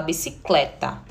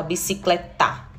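First: Said in the usual way. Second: Bicicletar as bicicleTÁ, final syllable stressed; stress on last syllable. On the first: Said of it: "a gente fala bicicleta". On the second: Shown as a demonstration. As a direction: push the TA at the end of bicicletar. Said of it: "a gente não fala bicicletar".

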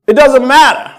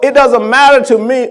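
First: "It doesn't matter" louder and higher, hitting "doesn't"; emphatic repeat. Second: Said in the usual way. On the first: Shown as a demonstration. Pastor repeating it because the church didn't hear, punching "doesn't". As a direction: slam "doesn't" so they finally hear it. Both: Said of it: "No, no, you ain't hear me".

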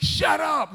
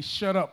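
First: Sudden high-pitched mock shout; mad parent. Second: Said in the usual way. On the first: Mom or dad losing it at the children, mock angry shout. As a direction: snap it like a fed-up parent. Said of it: "mom or dad would get mad".

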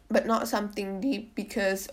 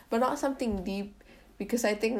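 First: A real crack breaks the voice. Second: Said in the usual way. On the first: Real, not acted. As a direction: voice cracks mid-phrase. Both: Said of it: "my voice just cracked".

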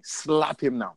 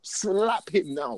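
First: Higher-pitched order to slap; acted command. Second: Slow, high-pitched acted order; drawn-out command. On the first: Parent telling their child to slap a kid, commanding. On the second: Parent repeating the order to their child, slow command. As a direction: stretch out each word of the order, pitched up.

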